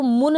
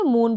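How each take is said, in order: First: मुन with a short, quick u; wrong short vowel. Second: मून with a long oo; long vowel. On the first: Teacher showing learners the misreading, short u in मुन. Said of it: "इसको मुन नहीं पढ़ेंगे". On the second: Teacher giving the correct reading, long oo in मून. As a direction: hold the oo in मून. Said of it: "मून पढ़ेंगे". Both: Shown as a demonstration.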